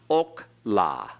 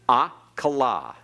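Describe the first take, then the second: First: The word begins with an o vowel. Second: The word begins with an a vowel. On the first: The speaker calls it wrong. "Notice it's not okla" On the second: The speaker calls it right. "It's akla"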